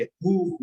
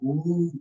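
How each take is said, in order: First: हु short, one beat; short vowel. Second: हु with the u drawn out long; long vowel. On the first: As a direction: keep हु brief. (हु छोटा, एक मात्रा में) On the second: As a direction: stretch हु to two beats. (हु का उ दीर्घ, खींचकर) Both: Shown as a demonstration. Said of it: "तो हु दीर्घ ऊ हुआ".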